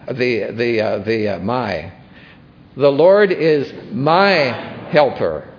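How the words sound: The word "my" carries the strongest stress. "let's emphasize my"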